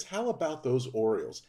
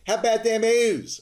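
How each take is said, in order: First: Said in the usual way. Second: High, loud Baltimore accent cheer. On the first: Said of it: "what they're trying to say is". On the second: Shown as a demonstration. Podcast host showing off hometown Orioles cheer, Baltimore accent. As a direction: belt it out in a thick Baltimore accent. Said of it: "my best Baltimore accent".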